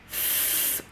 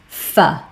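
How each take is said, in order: First: A pure consonant with no vowel after it. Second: The consonant is followed by an 'uh' vowel. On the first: The speaker calls it right. "F makes a f sound" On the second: The speaker calls it wrong. "I hear it often as"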